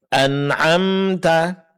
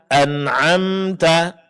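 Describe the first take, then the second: Both takes have the same delivery.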